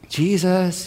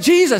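First: The name is called softly and gently. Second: The name is called loudly and urgently. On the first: Someone is woken calmly, as a child would be. "you know how you wake up your children?" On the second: Someone is woken in a panic during danger. "No, it's not like that. It's like"

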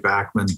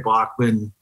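First: The name is said the Canadian way. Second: The name is said the German way. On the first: "In Canada and Australia, they say Bachman" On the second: "in Germany, they say Bachman"

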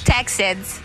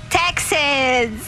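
First: It is said in her ordinary accent. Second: It is said in a put-on Texan accent. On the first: "as regular [name] saying Texans" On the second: "in accent saying it"

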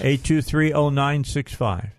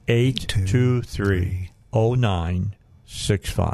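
First: The number is said at normal speed. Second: The number is said slowly.

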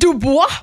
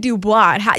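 First: The name is said with a fancy French flourish. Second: The name is said plainly, without French flair. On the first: The speaker calls it right. "You have to like get the little flick of the wrist" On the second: The speaker calls it wrong. "You can't say Dubois"

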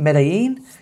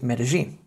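First: The double L is not said as a J sound. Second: The double L is said as a J sound. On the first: The speaker calls it wrong. "rather than it being Medellin" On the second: The speaker calls it right. "or should be pronounced as Medellin"

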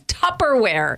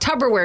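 First: The middle consonant is a P sound. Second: The middle consonant is a B sound. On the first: This is the standard name of the product. The speaker calls it right. "It's Tupperware" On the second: The word is mistakenly linked to a tub. The speaker calls it wrong. "If it was a B instead of a P"

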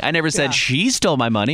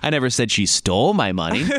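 First: The stress is on the word 'she'. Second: The stress is on the word 'stole'. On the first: Somebody else took the money. "meaning somebody else stole the money" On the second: She may have borrowed or lost the money. "meaning maybe she borrowed it or she lost it"

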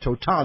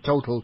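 First: The name is pronounced a foreign way. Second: The name is pronounced the English way. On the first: "to now call it Total" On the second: "from an English point of view and say Total"

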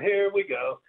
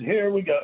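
First: It is said at a higher pitch. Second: It is shouted loudly. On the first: "then you'd do it higher" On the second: "then you would shout it"

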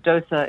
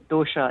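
First: The middle consonant is an s sound. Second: The middle consonant is an sh sound.

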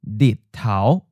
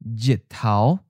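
First: The word begins with an l sound. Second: The word begins with a j sound. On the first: This is the newer merged pronunciation. "merge with the letter L or L sound" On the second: This is the traditional pronunciation. "the J sounds like J"

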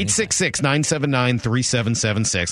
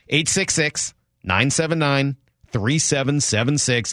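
First: The number is said at normal quick speed. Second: The number is said slowly and deliberately.

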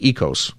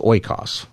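First: The word begins with an 'eh' sound. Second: The word begins with an 'oy' sound. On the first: This is the modern Greek pronunciation. "it's really ekos, okay, is how you would say it today" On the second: This is the ancient Greek pronunciation. "that would be maybe how you'd pronounce it if you're talking about biblical Greek"

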